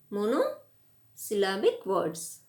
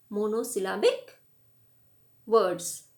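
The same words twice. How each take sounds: First: Monosyllabic words said slowly, each syllable spelled out; slow down and lay out monosyllabic words for the class; slow repeat. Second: Said in the usual way. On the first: Shown as a demonstration. Teacher repeating the key term for students, slow and deliberate.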